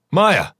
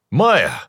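First: "Maya!" much higher and louder, desperate; desperate cry. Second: "Maya!" called out louder and higher; crying out. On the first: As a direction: call "Maya!" again, now frantic. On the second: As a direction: call your fainting wife's name, alarmed. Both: Acted. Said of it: "cried out her husband".

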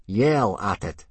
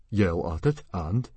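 First: Slow, firm, drawn-out restatement; weighty, measured proclamation; solemn repeat. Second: Said in the usual way. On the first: A narrator's reading. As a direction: repeat it slowly as the final word. Gobber repeats his solemn reading.

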